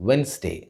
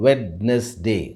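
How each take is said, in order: First: WEDNESDAY said as "wens-day", two syllables; silent D. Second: WEDNESDAY slowly split as "wed-nes-day"; three-syllable mispronunciation. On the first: Teacher gives the right pronunciation, silent D. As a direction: say Wednesday without the first D. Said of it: "the right pronunciation for this word". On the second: Teacher shows the common Indian mistake, three syllables. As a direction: say Wednesday in three parts, sounding the D. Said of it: "break this word into three syllables". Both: Shown as a demonstration.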